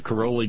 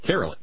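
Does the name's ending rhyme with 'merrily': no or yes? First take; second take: no; yes. First: The name does not rhyme with merrily. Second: The name rhymes with merrily. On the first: The speaker calls it wrong. "I'm getting a pronunciation correction" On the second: The speaker calls it right. "Says it rhymes with merrily"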